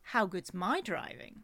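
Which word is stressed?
my. The stress falls on the word my.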